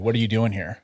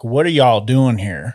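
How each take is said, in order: First: It is said in the speaker's ordinary accent. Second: It is said in a put-on Southern accent.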